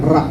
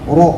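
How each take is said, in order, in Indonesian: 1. Vokal setelah r terdengar seperti a biasa. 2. Vokal setelah r terdengar membulat, seperti o. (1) "jangan ra"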